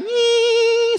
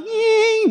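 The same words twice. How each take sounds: First: Very high, held "nying" whine; mosquito whine. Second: High "nying" cut shorter, dropping at the end; changed mosquito whine. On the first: Comic imitating a mosquito flying by, high whine. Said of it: "Ada nyamuk terbang biasanya kan". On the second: Mosquito now politely passing the comic, high whine that falls. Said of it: "sekarang berubah". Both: Acted.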